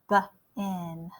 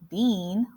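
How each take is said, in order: First: The vowel is a short E sound. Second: The vowel is a long E sound. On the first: The speaker calls it right. "It's almost like a short E" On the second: The speaker calls it wrong. "we don't say b-een, bean, like a green bean"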